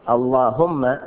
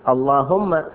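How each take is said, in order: The two takes are said the same way.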